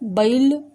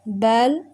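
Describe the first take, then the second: First: It is said with an eastern regional accent. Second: It is said in standard Hindi. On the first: The speaker calls it wrong. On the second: The speaker calls it right.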